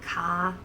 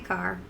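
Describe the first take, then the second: First: The final r sound is dropped. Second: The final r sound is clearly pronounced. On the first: The speaker calls it wrong. "more of a Bronx and Jersey accent" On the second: The speaker calls it right. "No, I say car"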